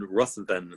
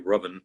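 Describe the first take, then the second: First: The name is pronounced following its spelling. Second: The name is pronounced differently from its spelling. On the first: The speaker calls it wrong. "spelled Ruthven" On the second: The speaker calls it right. "It's actually Ruthven"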